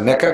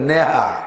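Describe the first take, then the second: First: The middle consonant is a k sound. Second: The middle consonant is an h sound. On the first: This is the standard form. "নেকা কয় না গ্রামে" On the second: This is the village dialect form. "আঞ্চলিক ভাষায় কয় নেহা"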